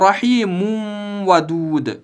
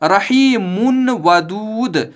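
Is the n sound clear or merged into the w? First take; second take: merged; clear. First: The n sound is merged into the following w. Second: The n sound is pronounced clearly before the w. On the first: The speaker calls it wrong. "न कि" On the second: The speaker calls it right. "इजहार होता, यानी इस मुन की आवाज को इस वाव में दाखिल नहीं कर सकते"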